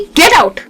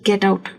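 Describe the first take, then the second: First: It is said angrily, with strong emotion. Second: It is said flatly, without emotion.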